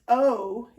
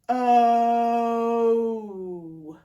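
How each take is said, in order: First: The vowel is said at normal speed. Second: The vowel is drawn out very slowly.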